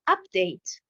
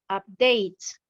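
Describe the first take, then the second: First: The stress is on the first syllable. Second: The stress is on the second syllable. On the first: It is a noun. "nous avons l'accentuation sur la première syllabe" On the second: It is a verb. "j'ai l'accentuation sur la deuxième syllabe"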